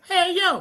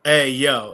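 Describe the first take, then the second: First: Very high, squeaky little-kid imitation; four-year-old's voice. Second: Said in the usual way. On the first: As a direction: mimic a tiny child parroting a catchphrase. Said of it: "'cause she was, like, four at the time". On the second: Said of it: "I go".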